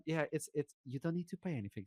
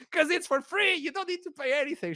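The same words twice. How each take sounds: First: Soft, hushed stewardess explanation; gentle reassurance. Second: High-pitched, giggly mock explanation; amused explanation. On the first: Retold or imitated. Stewardess tells embarrassed passenger it is free, softly. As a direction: drop the volume and explain discreetly. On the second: Telling a poor passenger it is free, high and amused. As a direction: pitch it way up, as if obvious.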